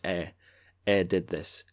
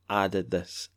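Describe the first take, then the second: First: The first word sounds like 'eh'. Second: The first word sounds like 'ah'. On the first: This is how it is said in Dundee. "In Dundee, we'd see eh did this" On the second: This is how it is said in most of Scotland. "in most of Scotland, it wouldn't be eh, it would be ah"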